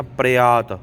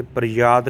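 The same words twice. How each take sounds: First: ਪ੍ਰਿਆਤ without a y, "pre-aat"; ਪ੍ਰਿਆਤ said as "preaat", no y consonant; correct pronunciation. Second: ਪ੍ਰਿਆਤ with a y sound, "pri-yaat"; ਪ੍ਰਿਆਤ said as "priyaat"; wrong pronunciation. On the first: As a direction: open straight onto "aa" in ਪ੍ਰਿਆਤ. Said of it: "ਤੇ ਪ੍ਰਿਆਤ ਨਹੀਂ ਕਹਿਣਾ". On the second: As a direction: put a y-glide before the long "aa" in ਪ੍ਰਿਆਤ. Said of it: "ਯਈਏ ਦਾ ਉਚਾਰ ਨਹੀਂ ਕਰਨਾ". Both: Shown as a demonstration.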